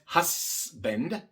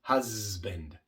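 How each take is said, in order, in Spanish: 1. La S se pronuncia como silbido, sin voz. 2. La S se pronuncia como zumbido, con voz. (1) "No es husband. La S no es sorda" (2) "Lo correcto es husband"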